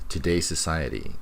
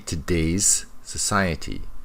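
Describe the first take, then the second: First: The two s sounds are joined together. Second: The two s sounds are said separately. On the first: The speaker calls it right. "The two S's are connected" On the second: The speaker calls it wrong. "she doesn't say today's society"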